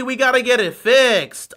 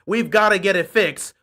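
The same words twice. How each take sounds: First: Loud mock disbelief, pitched up; heavily sarcastic, raised voice; sarcastic echo. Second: Said in the usual way. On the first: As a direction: echo it as if it were shocking news. Mocking echo of coach's quote. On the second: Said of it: "Harbaugh on Henry fumbling".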